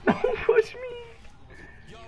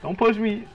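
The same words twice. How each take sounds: First: High, slow, crying whine; mock whiny cry. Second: Said in the usual way. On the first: Shown as a demonstration. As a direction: whimper it out like a baby.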